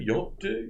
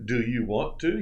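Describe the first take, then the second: First: The words are squeezed into one word. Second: Each word is said separately and fully.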